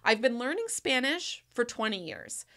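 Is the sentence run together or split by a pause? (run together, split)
split. It is said in two chunks with a pause. The speaker calls it right. "there's two two chunks"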